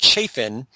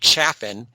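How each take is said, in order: First: The first vowel sounds like in 'chafe'. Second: The first vowel sounds like in 'chaff'. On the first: The speaker calls it wrong. "twice mispronounced Chafin" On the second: The speaker calls it right. "when it's actually Chaffin"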